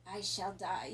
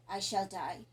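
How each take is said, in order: First: Forced out through clenched teeth; pained, teeth clenched; through gritted teeth. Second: Determined. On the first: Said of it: "through gritted teeth". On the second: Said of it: "the voice full of determination". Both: Acted.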